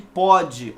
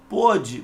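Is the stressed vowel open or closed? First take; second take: open; closed. First: The stressed vowel is an open o. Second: The stressed vowel is a closed o. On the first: It refers to the present. "olha a pronúncia como é aberta" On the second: It refers to the past. "pronúncia fechada"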